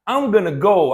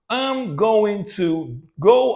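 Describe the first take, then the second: First: The words going to are reduced to gonna. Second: The words going to are said in full.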